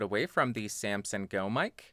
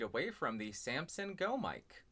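First: The voice is about one foot away. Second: The voice is about four feet away. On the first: "Now I'm about 1 foot away" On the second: "and about 4 feet away"

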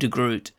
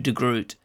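First: The name is pronounced the English way. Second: The same.

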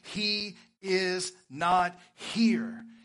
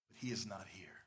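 First: It is read with lively, rising excitement. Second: It is read in a calm, plain way.

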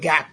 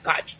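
First: The name ends with a k sound. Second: The name ends with a ch sound. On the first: The speaker calls it wrong. "I want to say Gak, but it's not Gak" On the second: The speaker calls it right.

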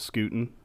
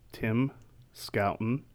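First: The first syllable rhymes with 'boot'. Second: The first syllable rhymes with 'out'. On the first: The speaker calls it wrong. "Also incorrectly pronounced Scooten" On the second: The speaker calls it right. "Scout and Ten"

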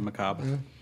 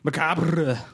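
First: The R is said plainly, not rolled. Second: The R is rolled with a trill.

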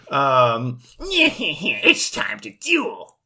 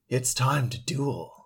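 First: A put-on voice imitating the character Weevil. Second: A put-on voice imitating the Japanese Yami dub. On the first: "Is that Weevil? Yeah" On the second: "like Japanese Yami Yugi"

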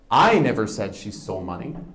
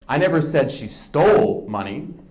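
First: The word 'I' is stressed. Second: The word 'stole' is stressed.

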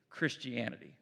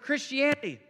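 First: It is read in a dismissive, mocking tone. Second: It is read in an earnest, preaching tone. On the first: The belief is presented as absurd. "the way that they were trying to say it was this" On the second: The belief is presented as awe-inspiring. "it was preaching. When I read it, I heard this"

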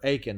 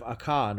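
First: The name is said in its usual way. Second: The name is said in a less common way.

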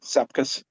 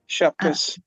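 First: The name begins with an s sound. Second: The name begins with an sh sound. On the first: This is how Americans say it. "everyone in America calls it Sepkus" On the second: This is how Lithuanians say it. "Lithuanians pronounce Sepkus with a SH sound"

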